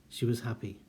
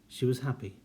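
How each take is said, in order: Both takes have the same delivery.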